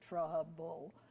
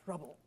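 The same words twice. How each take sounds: First: The two syllables are said separately and evenly. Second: The two syllables are run quickly together. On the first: The speaker calls it wrong. "We don't say trouble with one syllable and then another one" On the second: The speaker calls it right. "It's trouble"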